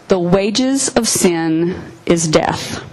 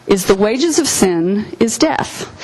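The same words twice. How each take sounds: First: Slow, weighty reading, stress on wages; solemn slow quote. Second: Said in the usual way. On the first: Shown as a demonstration. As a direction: lay each word down slowly, leaning on "wages".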